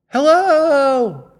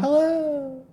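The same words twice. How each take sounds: First: High, long called hello; echoing call. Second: High quieter repeated hello; softer echo. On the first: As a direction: call out across a valley. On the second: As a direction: fade it like an echo. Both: Pretend. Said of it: "This noise".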